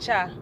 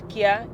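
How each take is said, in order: First: The syllable starts with a CH sound. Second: The syllable starts with a hard K sound. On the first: The speaker calls it right. "it is Cha" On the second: The speaker calls it wrong. "any pronunciation of K Y A is not Kya"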